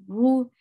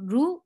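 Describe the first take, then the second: First: The ra is pronounced heavy and full. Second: The ra is pronounced light and thin. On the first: The speaker calls it right. "you're making ra heavy because there is dhamma at the top" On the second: The speaker calls it wrong. "ru is light. Don't say like this"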